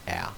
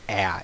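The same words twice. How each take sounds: First: The vowel is said weakly and unclearly. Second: The vowel is said strongly and very clearly. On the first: The speaker calls it wrong. "don't just go a" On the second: The speaker calls it right. "I like to say a as an apple. Enunciate enunciate very very clearly"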